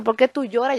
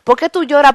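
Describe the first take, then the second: First: Hushed question, much softer, almost intimate; soft voice of Jesus. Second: Jesus, raised voice. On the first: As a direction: ask gently, as if leaning close. (Jesús pregunta "¿Por qué tú lloras?" en voz suave y baja) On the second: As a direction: ask again, stronger, as if insisting. (Jesús repite "¿Por qué tú lloras?" más fuerte) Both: Acted. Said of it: "Como quien dice".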